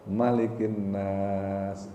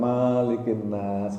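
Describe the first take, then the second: First: The first vowel of Malik is short. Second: The first vowel of Malik is long. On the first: The speaker calls it right. "dibacanya pendek" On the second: The speaker calls it wrong.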